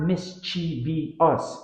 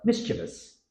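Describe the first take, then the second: First: Mischievous slowly as mis-chee-vee-us; wrong extra syllable. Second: Mischievous briskly as MIS-chuh-vus; three syllables. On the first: Teacher showing what to avoid, extra syllable. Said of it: "It's not". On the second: Teacher correcting the error, three-syllable pronunciation. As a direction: say mischievous with no ee after the V. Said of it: "the I after the V". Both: Shown as a demonstration.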